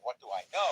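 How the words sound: The stress falls on the word know. The question is about knowledge itself. The speaker calls it wrong. "instead of emphasizing what do I know"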